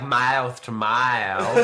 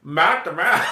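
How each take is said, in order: First: Slow, drawn-out mock Australian; Australian accent sliding into southern US drawl; attempted Australian accent. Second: Hammed-up Australian, pitched up; mock Aussie accent with raised pitch; bad Australian accent. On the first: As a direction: stretch the vowels in a southern-tinged Australian. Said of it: "I think they'd be like". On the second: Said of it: "how do you say it in Australian?". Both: Shown as a demonstration.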